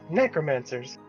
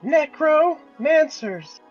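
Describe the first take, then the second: First: It is said at normal speed. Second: It is said slowly.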